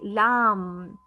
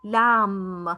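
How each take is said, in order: First: The word ends with an M sound only. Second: The word ends with an M sound only.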